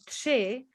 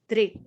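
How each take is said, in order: First: The r is a buzzing, hissing ř sound. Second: The r is a plain r sound. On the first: This is the standard Czech form. "the number three would be tři" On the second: This is how a local village says it, like Slovak. "they would just say like tri, just like the Slovaks would"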